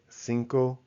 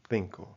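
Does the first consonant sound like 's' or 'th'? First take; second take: s; th. First: The first consonant is an s sound. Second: The first consonant is a th sound. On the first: This is how it is said in Latin America. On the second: This is how it is said in Spain.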